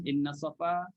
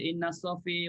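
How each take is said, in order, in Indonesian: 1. Vokal terakhirnya 'a' terbuka yang polos. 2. Vokal terakhirnya condong ke 'i'. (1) "Inna safa macam orang nak nak, nak sa'i" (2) "tak ada yang baca inna safi wal marwah, tak ada"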